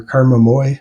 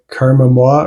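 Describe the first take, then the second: First: Moi said as "moy"; alternative pronunciation. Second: Moi said as "mwah"; French-style pronunciation. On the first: Reviewer hedging on the band name, Moi as "moy". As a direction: say Karma Moi with Moi rhyming with boy. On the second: Reviewer recommending a band whose name he's unsure of, Moi as "mwah". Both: Shown as a demonstration. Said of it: "not sure how to pronounce it".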